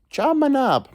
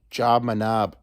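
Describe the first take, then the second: First: Job my knob jumped way up high, sing-song; silly high-pitched repeat. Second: Said in the usual way. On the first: Shown as a demonstration. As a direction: toss Job my knob up into a high squeaky register. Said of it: "repeated high". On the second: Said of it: "repeated with pitch jump".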